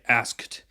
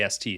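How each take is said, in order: First: The k sound is clearly pronounced. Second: The k sound is dropped entirely. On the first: The speaker calls it wrong. "you don't say asked" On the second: The speaker calls it right. "You usually will say ast"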